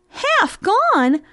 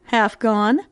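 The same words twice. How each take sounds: First: High, astonished mouse voice; incredulous echo. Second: Low, understated cat's reply; matter-of-fact answer. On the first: Acted. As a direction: repeat it high, in disbelief. Mouse echoes name in disbelief. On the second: A narrator's reading. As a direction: answer evenly in a lower voice. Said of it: "answered the cat".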